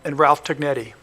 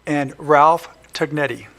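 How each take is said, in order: First: It is said fast. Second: It is said slowly.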